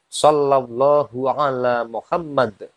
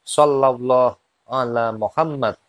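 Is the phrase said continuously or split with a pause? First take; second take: continuous; split. First: The phrase is said in one continuous stretch. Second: The phrase is split into two parts by a pause. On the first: "Ini kalau dibaca panjang" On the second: "bisa dipisah menjadi dua"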